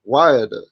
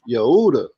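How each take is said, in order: First: The name begins with a W sound. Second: The name begins with a Y sound. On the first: The speaker calls it wrong. "it's not Wayada" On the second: The speaker calls it right. "it's Yehuda"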